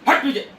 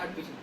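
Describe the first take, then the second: First: It is said loudly and forcefully. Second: It is said softly and gently. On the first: The dog is being driven off sternly. "अपने आप ही हमारी आवाज voice loudly हो जाती है" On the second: The dog is being coaxed kindly. "प्यार से प्यार से बोलते हो"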